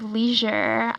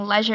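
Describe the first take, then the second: First: It is said with an American pronunciation. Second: It is said with a British pronunciation. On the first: It is the speaker's usual way of saying it. "instead of leisure" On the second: It was picked up from hearing it in the UK. "saying leisure"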